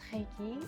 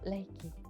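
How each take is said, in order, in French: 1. Le R est un R français guttural. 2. Le R est un R japonais léger, battu. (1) "souvent appelé en France Reiki" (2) "Nous n'avons pas cette prononciation sur R à la française"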